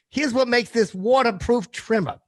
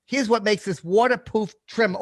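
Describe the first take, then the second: First: Said in the usual way. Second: "waterproof" said as "waterpoof", the r dropped; "waterproof" fumbled into "waterpoof"; an accidental "waterpoof" slip in the ad read; slipped pronunciation. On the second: Real, not acted. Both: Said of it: "He says waterproof".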